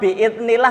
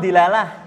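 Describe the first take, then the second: First: It is said as a longer Arabic-sounding phrase. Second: It is said as a short three-syllable word. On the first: This is the original, harder form. The speaker calls it right. "kok kayaknya kok susah, sulit" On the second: This is the everyday, easier form. The speaker calls it wrong. "Gampang ngucap di dilalah"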